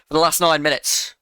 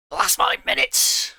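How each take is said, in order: First: Said in the usual way. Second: Much higher, put-on exclaiming voice; exaggerated exclamation. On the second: Streamer jokily repeating his claim after correcting himself, exaggerated exclamation. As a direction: jump up high in mock insistence.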